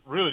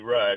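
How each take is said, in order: First: The vowel is long, as in 'boot'. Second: The vowel is short, as in 'cut'. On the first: The speaker calls it wrong. "people would always mispronounce my grandfather's names" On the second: The speaker calls it right. "it's R-U-D-D, Rudd"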